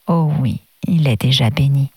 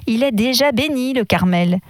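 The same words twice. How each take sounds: First: A gentle, low, fatherly reassurance; lower, tender "il est déjà béni"; gently. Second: A mild, curt "déjà" pitched higher, with mild displeasure; the vicar brushing the request aside, lightly irritated; higher, slightly annoyed, "déjà" stressed; displeased voice. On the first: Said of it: "avec douceur". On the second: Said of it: "d'une voix mécontente". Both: A narrator's reading.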